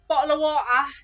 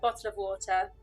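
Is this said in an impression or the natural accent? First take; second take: impression; natural. First: It is said in a put-on stereotyped accent. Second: It is said in the speaker's natural accent. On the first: This is how others expect the speaker to talk. "That's what you guys were expecting" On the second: This is how the speaker really talks. "bottle of water is where I'm from"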